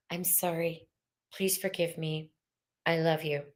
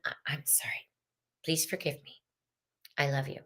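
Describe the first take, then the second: First: Hushed, gentle Ho'oponopono prayer; quiet healing prayer; soft prayer. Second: Breathy whisper of the Ho'oponopono prayer; whispered healing prayer. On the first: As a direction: say it softly, like a prayer to your own heart. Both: Shown as a demonstration.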